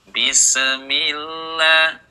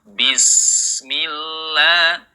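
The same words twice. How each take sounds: First: An extra e vowel follows the s. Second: The s flows on with no added vowel. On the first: The speaker calls it wrong. "jangan dibaca bismillah" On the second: The speaker calls it right. "jangan ditambahkan bunyi e"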